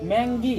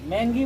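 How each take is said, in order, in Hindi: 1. बीच के व्यंजन 'ng' की तरह बोले जाते हैं। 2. बीच के व्यंजन 'ng' की तरह बोले जाते हैं।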